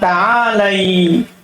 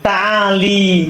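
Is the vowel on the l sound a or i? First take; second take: a; i. First: The l carries an a vowel. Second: The l carries an i vowel. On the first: The speaker calls it right. "Seharusnya dia bilang apa?" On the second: The speaker calls it wrong. "Dia bilang ta'ali salah"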